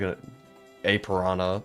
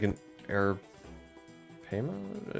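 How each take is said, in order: First: The name ends with a 'piranha' sound. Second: The name ends with a 'payment' sound. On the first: The speaker calls it wrong. "I've always called it like" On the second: The speaker calls it right. "but it's like"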